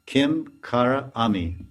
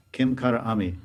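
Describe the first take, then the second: First: Slow spelling out. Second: Said in the usual way. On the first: Shown as a demonstration. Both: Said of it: "Kinkari means".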